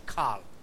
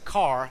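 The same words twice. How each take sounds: First: It is said with an L sound, Japanese-style. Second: It is said with a plain R sound.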